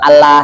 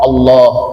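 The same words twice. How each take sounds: First: The L is thin, with unrounded lips. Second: The L is thick, with rounded lips. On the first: The speaker calls it wrong. "bukan Allah" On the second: The speaker calls it right. "tebal, mulut agak monyong, suara kedengaran seperti oh Allah"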